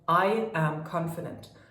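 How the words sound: It sounds firm, commanding and full of conviction. The speaker fully believes it. The speaker calls it right. "this is me now. I command this. I am saying this with conviction"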